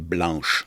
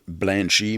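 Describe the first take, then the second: First: The name ends on the 'sh' consonant. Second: The name ends with an added 'ee' vowel. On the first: This is the name as it is actually written. "mais c'est Blanche" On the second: This is how people pronounce the name. "ça se prononce Blanchy"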